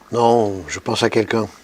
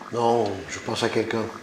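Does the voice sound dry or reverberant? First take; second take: dry; reverberant. First: The voice sounds dry, with no added echo. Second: The voice has added echo like a large room. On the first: The speaker calls it wrong. "Si je ne touche pas à ma voix" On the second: The speaker calls it right. "je vais donc rajouter un filtre de réverbération"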